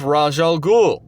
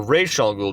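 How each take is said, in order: First: "Ra's al Ghul" with Ra's said as "Rahzh"; Raj pronunciation. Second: "Ra's al Ghul" with Ra's said as "Raysh"; alternative pronunciation. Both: Shown as a demonstration. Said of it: "depending on how you pronounce it".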